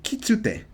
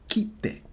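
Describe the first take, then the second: First: A full 'tsu' syllable is spoken in the middle. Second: A short silent pause replaces the middle syllable. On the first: The speaker calls it wrong. "I wouldn't say kitsute. No" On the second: The speaker calls it right. "you don't pronounce it, you just pause"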